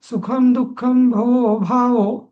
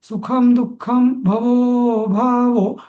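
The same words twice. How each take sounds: First: The vowel before the last word is held short. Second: The vowel before the last word is drawn out long. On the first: The eight-syllable meter stays intact. The speaker calls it right. "इथपर्यंत ठीक आहे" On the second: The meter is broken. The speaker calls it wrong. "असा जर म्हटला ना, तर तो छंदभेद होतो"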